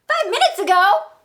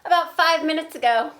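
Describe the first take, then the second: First: Much higher, loud disbelieving question; can't believe it, echo her words; Gerald incredulous. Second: Loud, higher casual answer; Piggy matter-of-fact. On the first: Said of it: "When I say the Gerald part". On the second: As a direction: toss it off as no big deal. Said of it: "when I say the piggy parts". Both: Acted.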